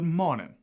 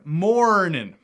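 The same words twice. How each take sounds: First: A Southern accent with the R dropped. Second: A Texan accent with a strong R sound. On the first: "A Southerner might say good morning" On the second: "In Texas, I would say... That's that rhotic R"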